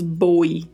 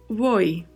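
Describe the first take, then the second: First: The word starts with a strong b sound. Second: The word starts with a very soft b sound. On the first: The speaker calls it wrong. "também não falamos boi" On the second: The speaker calls it right. "Falamos voi, voi. É um som de B bem suave"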